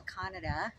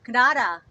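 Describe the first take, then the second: First: "Canada" said the English way, stress on first syllable; "Canada" as KAN-uh-duh, rising. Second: "Canada" said the French way, stress on the second syllable; "Canada" as kuh-NAH-duh, louder and falling. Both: Shown as a demonstration. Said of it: "Did you guys pronounce it Canada?".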